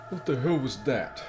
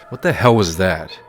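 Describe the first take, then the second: First: Higher and softer, stunned; a quiet stunned gasp of a question; soft shocked reaction. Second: Loud, outraged repeat; louder repeat. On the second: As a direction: punch it out in disbelief. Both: Real, not acted. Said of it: "My reaction".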